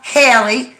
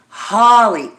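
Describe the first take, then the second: First: The first vowel sounds like 'ay'. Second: The first vowel sounds like 'ah'. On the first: The speaker calls it wrong. "not Haley" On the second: The speaker calls it right. "You pronounce it Holly"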